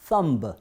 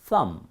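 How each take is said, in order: First: The final b is sounded after the m. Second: The word ends on the m, b silent. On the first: This may be how it was said long ago. The speaker calls it wrong. "옛날에는 실제로 thumb 이렇게 발음했을지도 몰라요" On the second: This is how it is said today. The speaker calls it right. "발음기 없으면 발음하지 않습니다"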